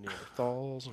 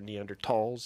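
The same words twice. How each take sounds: First: The middle consonant is a th sound. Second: The middle consonant is a plain t sound. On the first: This is the older familiar pronunciation. "we used to call it Neanderthals" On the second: This is the newer German-based pronunciation. "in German, it's pronounced, the valley is called the Tall Valley"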